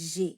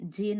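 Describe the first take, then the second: First: It is said with a French vowel and sound. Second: It sounds like the English letter name J. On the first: The speaker calls it right. "কিন্তু জে" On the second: The speaker calls it wrong. "জে নয়"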